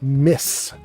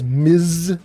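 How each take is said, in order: First: The word ends with a hissing s sound. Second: The word ends with a buzzing z sound. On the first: The speaker calls it right. "she wants you to pronounce it Miss" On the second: The speaker calls it wrong. "M S is Miz"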